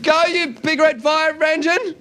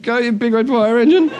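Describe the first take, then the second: First: High, slow, drawn-out call; insistent high-pitched shout; acted yell. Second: Hesitant, questioning echo; tentative rising chant; unsure crowd. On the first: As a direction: yell it out to the crowd. Fireman repeating his yell. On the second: Acted. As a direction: repeat it as a puzzled question. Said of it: "looked at each other and went".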